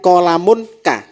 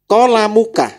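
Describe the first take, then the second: First: It is said with an 'n' before 'ka'. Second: It is said without an 'n' before 'ka'. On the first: The speaker calls it wrong. "Bukan kolamun ka" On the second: The speaker calls it right. "kolamuka menja- artinya pulpenmu"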